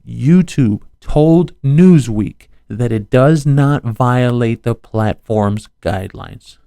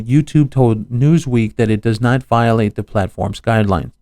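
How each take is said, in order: First: It is read very slowly. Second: It is read at normal speed.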